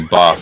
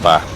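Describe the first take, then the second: First: It is said in a southern English accent. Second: It is said in a non-southern English accent. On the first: "the type where they say bath" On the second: "instead of bath"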